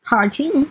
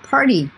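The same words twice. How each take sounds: First: The t is a clear t sound. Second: The t is a d-like flap.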